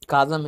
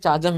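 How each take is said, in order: First: The word begins with a 'ka' sound. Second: The word begins with a 'cha' sound. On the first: "ना तो काजम है" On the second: "ना तो चाजम है"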